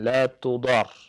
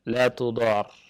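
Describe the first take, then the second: No difference in how they are said.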